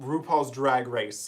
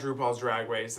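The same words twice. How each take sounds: First: The R in 'race' sounds clear. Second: The R in 'race' sounds garbled.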